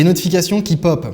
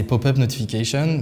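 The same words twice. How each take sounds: First: Said in the usual way. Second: "pop-up notification" in a mock English accent, "notification" with an English "sh"; bad English accent. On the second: Shown as a demonstration. Tech vlogger jokingly shows off his bad English accent. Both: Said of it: "mon petit accent anglais pourri".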